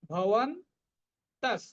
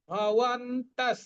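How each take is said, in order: First: ভবন্তঃ very slow, final n only half said; careful pronunciation. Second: ভবন্তঃ drawn out slowly, ending in a half dental s; careful pronunciation. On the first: Teacher repeating ভবন্তঃ with the half n shown. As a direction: say ভবন্তঃ slowly, barely touching the n. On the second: Teacher modelling ভবন্তঃ slowly, with a half s at the end. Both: Shown as a demonstration. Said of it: "বিসর্গের পরিবর্তে আমরা দন্ত স্বর উচ্চারণ করব অর্ধেক".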